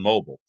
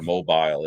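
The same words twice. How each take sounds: First: The word is said with an American accent. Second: The word is said with a British accent.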